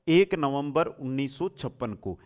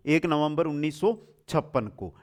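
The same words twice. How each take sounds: The two takes are said the same way.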